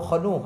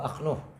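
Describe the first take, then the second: First: It starts with kh, followed by a vowel. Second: It starts with a vowel, kh closing the syllable. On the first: "bi fathil kha. Mahat fil hamzah, dibuang hamzanya" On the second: "bi fathil hamzati dengan fathahnya hamzah wa sukunil kha"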